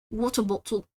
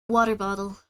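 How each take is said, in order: First: Non-rhotic British "Water bottle"; put-on British "Water bottle"; British accent. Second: Said in the usual way. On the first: Shown as a demonstration. Comparing accents on test words.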